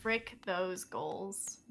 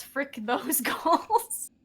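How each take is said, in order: First: "Frick those goals" drawn out slow, much lower and softer; mock solemn. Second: Mock motto. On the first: Caster echoing her partner, "Frick those goals" low and solemn. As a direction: murmur "Frick those goals" like a grave vow. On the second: Shown as a demonstration. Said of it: "you just gotta say one thing".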